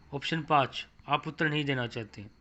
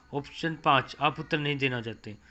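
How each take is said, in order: The two takes are said the same way.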